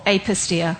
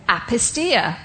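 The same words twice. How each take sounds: First: "apistia" opening with a long "ay" as in day; long first vowel. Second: "apistia" opening with a short "a" as in cat; short first vowel. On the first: Preacher offering another reading of a Greek word, long-a pronunciation of "apistia". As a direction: say "apistia" starting "ape". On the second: Preacher trying out a Greek word, short-a pronunciation of "apistia". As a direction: say "apistia" starting "app". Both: Shown as a demonstration. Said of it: "not sure how you say it".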